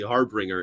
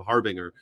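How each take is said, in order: First: An extra R sound follows the B. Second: No extra R sound follows the B. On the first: The speaker calls it wrong. "You've always added an extra R to this world" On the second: The speaker calls it right. "it's definitely harbinger"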